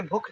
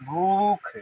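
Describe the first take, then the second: First: भूख clipped to a quick "bhuk"; wrong short u. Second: भूख with a drawn-out "bhoookh"; long held u. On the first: Teacher showing what not to say, vowel clipped. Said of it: "नहीं बोलेंगे". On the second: Teacher correcting the short reading, vowel held long. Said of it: "यहाँ पे हम देर तक रुकेंगे". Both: Shown as a demonstration.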